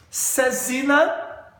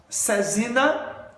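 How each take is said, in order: Both takes have the same delivery.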